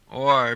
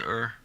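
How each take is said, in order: First: The word is said in full. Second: The word is reduced to a weak er.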